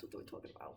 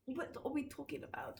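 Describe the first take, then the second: First: Spooky hushed whisper of the question. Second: Said in the usual way. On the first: Shown as a demonstration. Teasing the ghost topic, in a whisper. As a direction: breathe it like a secret.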